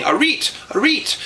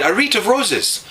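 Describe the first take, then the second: First: Put-on "reet" said high and insistent, as a foreign accent; neighbour repeating "reet". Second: "wreath of roses" spelled out slow and high; "wreath" said slowly and clearly. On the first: Neighbour woman insisting on the cow's name, "reet". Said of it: "She kept on saying". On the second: Retold or imitated. Neighbour finally explaining the name, slow and clear. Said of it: "finally she said".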